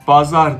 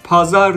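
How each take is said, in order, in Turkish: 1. Kelime B sesiyle başlıyor. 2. Kelime P sesiyle başlıyor. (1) "onlar bazar diyor B harfiyle" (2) "Biz pazar diyoruz P"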